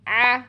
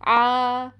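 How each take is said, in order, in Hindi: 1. गले की आवाज़ लगभग पूरी तरह दबी हुई होती है। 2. गले की आवाज़ में हल्का, खुला कंपन होता है। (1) "बिल्कुल बंद ही कर देते हैं" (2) "वोकल कॉर्ड्स में पैदा होने वाले वाइब्रेशंस की वजह से सुनाई देती है"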